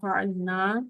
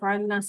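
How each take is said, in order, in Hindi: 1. अंतिम स्वर लंबा है, दो मात्राओं तक खींचा जाता है। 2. अंतिम स्वर छोटा है, एक मात्रा तक खींचा जाता है। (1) "ये टू काउंट्स के साथ पढ़ा जाएगा" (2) "सिंगल हरकत के साथ है"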